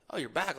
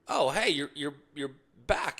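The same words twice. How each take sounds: First: "back?" lifted as a real question; questioning rise. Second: Said in the usual way. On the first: Retold or imitated. Bartender surprised to see the golfer return, questioning rise. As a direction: make it sound doubtful, rising at the end. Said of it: "Like a question mark". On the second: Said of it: "the bartender walks up and goes".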